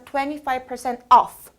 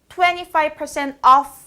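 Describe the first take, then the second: First: The voice falls clearly at the end. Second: The voice stays up at the end. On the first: The sentence is finished. The speaker calls it right. "하고 내려가야 돼요" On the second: More is still to come. The speaker calls it wrong. "끝을 안 내리니까 뭔가 계속 말할 것 같죠?"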